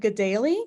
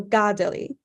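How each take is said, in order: First: The stress is not on the first syllable. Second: The stress is on the first syllable. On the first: This is how the home community says it. "I pronounce it Gedali because that's how the community that I was in pronounced it growing up" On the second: This follows the accents marked in the original language. "it should actually just put this the um, emphasis on the first syllable instead"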